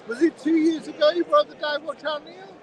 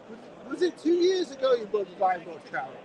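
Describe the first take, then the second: First: Raised voice to reach Neil across the stand; calling across a busy stand to the watchmaker. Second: Said in the usual way. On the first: Real, not acted. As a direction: call it over to him, higher and louder.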